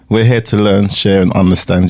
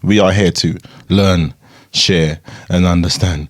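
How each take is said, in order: First: It is said fast. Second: It is said slowly.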